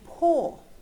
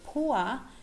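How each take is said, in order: First: The vowel is a single steady back vowel. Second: The vowel glides as a diphthong, ending in schwa. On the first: This is how younger speakers say it. "they say poor" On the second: This is the older pronunciation. "instead of saying poor"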